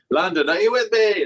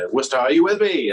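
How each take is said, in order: First: Mock stage rally. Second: Stage call. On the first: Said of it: "You could never be like". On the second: Retold or imitated. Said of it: "he comes out on stage and says".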